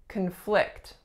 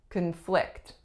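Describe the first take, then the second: First: The stress is on the second syllable. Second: The same.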